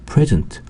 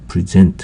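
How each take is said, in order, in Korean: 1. 강세는 첫 번째 음절에 있어요. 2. 강세는 두 번째 음절에 있어요. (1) "강세가 앞에 present 하면은 형용사로서" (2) "present 하면 강세가 뒤에 있으면 동사가 되겠고요"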